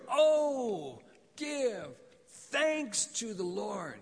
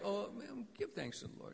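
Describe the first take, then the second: First: It is said with unrestrained joy. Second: It is said grudgingly, without joy.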